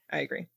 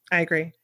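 First: Much softer, fading repeat; quiet. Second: Said in the usual way. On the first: Real, not acted. Co-host echoing her agreement, much softer. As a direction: drop the voice right down on the echo.

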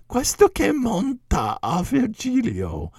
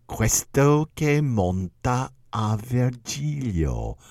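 First: High, slow, pointed Italian question; incredulous question. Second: Snide. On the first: Lecturer echoing Castelvetro's question, high and incredulous. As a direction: toss it up high in disbelief. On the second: Commentator Castelvetro mocking Virgil's reward, slow snide sneer. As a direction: let the contempt drip, slowly. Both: Retold or imitated. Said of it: "in a very snide way".

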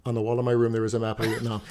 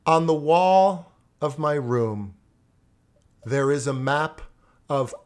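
First: Said in the usual way. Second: Big, slow, over-enunciated recitation; loud, slow, clear. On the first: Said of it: "you want loud, slow, clear?". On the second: Retold or imitated. Student finally reciting his poem for the teacher, loud and slow. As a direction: project each word slowly, as if screaming. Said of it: "Wasn't I screaming?".

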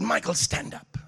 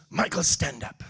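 First: Said in the usual way. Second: Imitating the bishop. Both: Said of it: "That's what he sounds like".

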